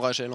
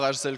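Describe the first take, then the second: First: The name is said without an S sound. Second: The name is said with an S sound. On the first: The speaker calls it right. "On ne prononce pas le S en fait et on dit tout simplement" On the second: The speaker calls it wrong. "On ne prononce pas Rachel comme"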